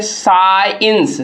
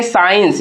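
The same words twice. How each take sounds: First: साइंस very slow and drawn out; demonstrated pronunciation. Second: Said in the usual way. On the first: Shown as a demonstration. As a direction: stretch साइंस out, "saaa-ins". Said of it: "इसको हम लोग क्या पढ़ते हैं". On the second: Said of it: "अब देखिए ये साइंस".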